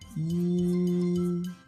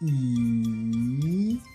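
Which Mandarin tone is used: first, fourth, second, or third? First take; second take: first; third. First: It is said with the first Mandarin tone. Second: It is said with the third Mandarin tone.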